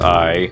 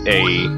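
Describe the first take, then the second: First: The word rhymes with 'my'. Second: The word rhymes with 'day'. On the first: The speaker calls it right. "the real way to pronounce it is I" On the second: The speaker calls it wrong. "some people might pronounce it A"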